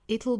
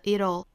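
First: It'll is said with a British t sound. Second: It'll is said with an American flapped t. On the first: "读成 it'll" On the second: "或者是美音的 it'll"

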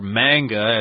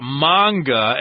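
First: It is said with an American pronunciation. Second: It is said with a Japanese pronunciation. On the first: "as we call them in the USA" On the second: "as they say in Japanese"

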